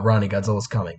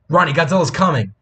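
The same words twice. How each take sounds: First: It is said flatly, without emotion. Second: It is said with urgent, alarmed emotion.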